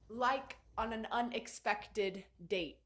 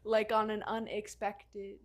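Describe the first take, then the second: First: It is said in a natural, human voice. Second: It is said in a robotic, Siri-like voice.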